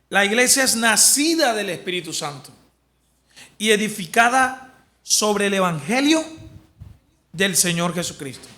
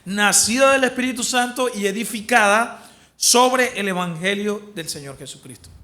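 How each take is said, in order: First: It is read slowly. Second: It is read fast.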